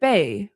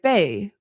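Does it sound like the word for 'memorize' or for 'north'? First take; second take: memorize; memorize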